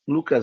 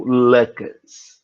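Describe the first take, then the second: First: The name is said in a plain, ordinary way. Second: The name is said in an affected, fancy way. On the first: The speaker calls it wrong. "Lucas não" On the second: The speaker calls it right. "É mais chique"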